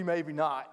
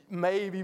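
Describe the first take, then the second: First: Doubtful maybe. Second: Hopeful maybe. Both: Shown as a demonstration.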